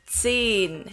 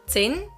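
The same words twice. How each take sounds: First: The vowel is long. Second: The vowel is short. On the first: The speaker calls it right. "the vowel becomes long" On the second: The speaker calls it wrong. "So it's not zehn here"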